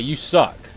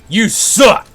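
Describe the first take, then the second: First: It is said plainly, without much force. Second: It is said loudly and with force.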